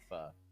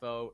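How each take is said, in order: First: The vowel sounds like the soup 'pho'. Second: The vowel sounds like the word 'foe'. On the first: The speaker calls it wrong. "not pho" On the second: The speaker calls it right. "he is very insistent that it's pronounced foe"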